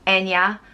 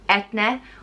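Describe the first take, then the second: First: The middle consonant is a y sound. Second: The middle consonant is a t sound. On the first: "It's usually pronounced En-ya" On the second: "it can also be pronounced Et-ne"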